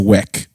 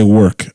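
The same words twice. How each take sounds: First: It is said with a Ghanaian pronunciation. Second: It is said with a Nigerian pronunciation. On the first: The speaker would sound like a local of Ghana. "I don't say work" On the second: The speaker still sounds like a Nigerian. "I'm still Nigerian. You know, 'cause I still say work"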